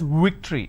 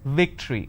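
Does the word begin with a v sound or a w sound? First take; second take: w sound; v sound. First: The word begins with a w sound. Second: The word begins with a v sound. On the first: The speaker calls it wrong. "They pronounce this as victory" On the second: The speaker calls it right. "If you have the letter V, you need to bite your lower lip. It's victory"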